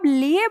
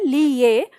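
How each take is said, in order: First: The final vowel follows directly without a 'y' sound. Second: A distinct 'y' sound comes before the final vowel. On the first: "आप लिए बोल रहे हैं" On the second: "आप अगर ली ये बोल रहे हैं"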